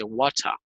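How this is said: It is said in a British accent. "al inglés de Inglaterra"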